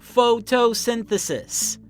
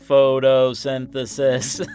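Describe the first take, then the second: First: It is said in a normal natural voice. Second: It is said in a flat robotic voice. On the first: "Can you say that with me?" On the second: "can we say it like a robot?"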